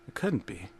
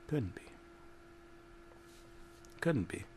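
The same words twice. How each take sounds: First: Much softer, low denial. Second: Fading denial. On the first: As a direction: murmur it to yourself, shaken. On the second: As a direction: let it die away in disbelief. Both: A narrator's reading.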